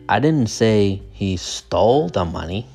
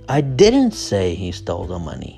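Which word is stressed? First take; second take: stole; didn't. First: The stress is on the word 'stole'. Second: The stress is on the word 'didn't'. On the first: He may have just borrowed it. "The stress is on stole" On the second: The speaker firmly denies it. "Didn't, right? That's where the stress is"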